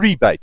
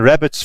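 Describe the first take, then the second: First: It is said like 'ree-bate', with a long vowel. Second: It is said like 'rabbit', with a short vowel. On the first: This is the form English speakers use. "a rebate for the English-speaking people" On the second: This is the form used elsewhere in the world. "rabbits for people in the other parts of the world"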